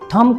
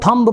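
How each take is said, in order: First: The word ends on the m sound. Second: The word ends with an audible b sound. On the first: The speaker calls it right. "एम के बाद बी silent होता है" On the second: The speaker calls it wrong. "थम को थम्ब पढ़ते हैं"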